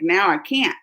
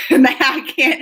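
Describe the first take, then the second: First: Said in the usual way. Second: Laughing. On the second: Shown as a demonstration.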